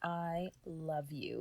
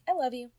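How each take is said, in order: First: It is said in a big, dramatic way. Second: It is said in a casual, offhand way.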